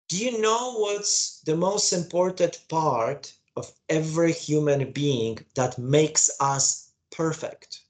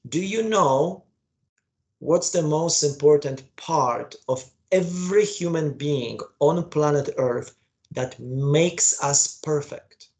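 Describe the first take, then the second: First: It is said at normal speed. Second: It is said slowly.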